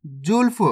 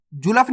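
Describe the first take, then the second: First: जुल्फ as one syllable, "julf"; correct half-letter reading. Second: जुल्फ opened up as "ju-laf"; wrong full-letter reading. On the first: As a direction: run l straight into f in जुल्फ. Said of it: "जुल्फ नहीं पढ़ना". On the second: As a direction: put a vowel after l in जुल्फ. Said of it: "नहीं पढ़ना". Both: Shown as a demonstration.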